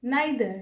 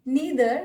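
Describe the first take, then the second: First: "neither" as nye-ther; alternative pronunciation. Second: "neither" as nee-ther; long ee in "neither"; alternative pronunciation. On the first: Teacher showing the other accepted "neither", said nye-ther. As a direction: eye diphthong in "neither". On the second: Teacher showing one accepted "neither", said nee-ther. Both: Shown as a demonstration. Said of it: "ये सारे प्रोनंसिएशंस correct".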